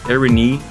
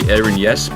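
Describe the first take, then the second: First: The vowel written Y is an 'ee' sound. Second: The vowel written Y is not an 'ee' sound. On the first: The speaker calls it right. "the Y sound in Greek is a, a double E sound" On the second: The speaker calls it wrong. "the default would probably be Erinies, but it actually is not Erinies"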